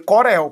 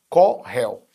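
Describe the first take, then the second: First: The middle R is a light tapped sound. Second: The middle R is a strong guttural sound. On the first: The speaker calls it wrong. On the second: The speaker calls it right.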